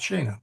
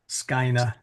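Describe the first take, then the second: First: The first vowel is a long E sound. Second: The first vowel is a long I sound. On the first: "Long E" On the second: "The A E becomes uh, a long I sound"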